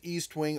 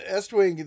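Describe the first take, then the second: First: It begins with a long 'ee' sound, like 'east'. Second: It begins with a short 'e' sound, like 'test'. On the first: This is the habitual way from growing up. The speaker calls it wrong. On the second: This is the proper name of the brand. The speaker calls it right.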